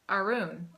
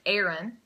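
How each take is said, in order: First: The name is said in yet another accent. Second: The name is said in an American accent. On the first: "if you're from somewhere else" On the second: "if you have an American accent, then it's like"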